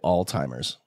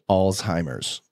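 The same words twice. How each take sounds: First: The first syllable is said as 'alt'. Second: The first syllable is said as 'al'. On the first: The speaker calls it wrong. "I hate when people say Alzheimer's" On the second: The speaker calls it right. "that's how you pronounce it"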